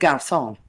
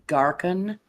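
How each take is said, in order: First: The middle consonant is a soft s sound. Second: The middle consonant is a hard k sound. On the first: It is the usual pronunciation. The speaker calls it right. "instead of garçon" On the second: It was a deliberate joke mispronunciation. The speaker calls it wrong. "he jokingly referred to a waiter as Garcon"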